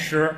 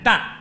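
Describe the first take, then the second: First: The character is read as shi. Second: The character is read as dan. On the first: This is the reading in the word for stone. "不念石" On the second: This is the reading used when weighing grain. "在称粮食的时候"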